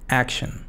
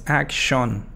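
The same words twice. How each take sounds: First: The last syllable has a reduced schwa vowel. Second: The last syllable has a full vowel. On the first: The speaker calls it right. "sino su pronunciación es shun" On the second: The speaker calls it wrong. "no es action ni, ni action. No"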